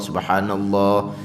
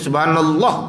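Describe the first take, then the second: First: The vowel after the second l is held long. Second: The vowel after the second l is cut short. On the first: Every letter is kept. The speaker calls it right. "Jaga tu" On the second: A letter is lost, so there is no reward. The speaker calls it wrong. "kita mati tak ada satu huruf"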